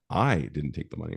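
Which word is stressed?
I. The stress is on "I".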